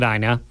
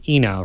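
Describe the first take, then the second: First: The name begins with an 'eye' sound. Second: The name begins with an 'ee' sound. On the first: This is how most people say the name. The speaker calls it wrong. "Everyone, of course, calls it Ina" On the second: This is how the namesake said her own name. The speaker calls it right. "but it is actually Ena Road"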